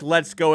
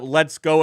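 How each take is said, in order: First: It is said in an excited, pumped-up tone. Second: It is said in an irritated, dismissive tone.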